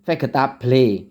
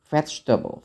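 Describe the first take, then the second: First: It is pronounced letter by letter, Indonesian-style. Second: It is pronounced with English sounds. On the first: "bacanya sering seperti vegetable gitu ... seperti tulisan" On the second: "dalam hati dia itu berkata vegetables"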